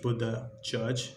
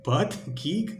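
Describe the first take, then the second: First: The name flows, ending in a 'judge' sound. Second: The name is split, ending in a 'geek' sound. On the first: The speaker calls it right. "see how it's pronounced" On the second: The speaker calls it wrong. "first I read his name wrong"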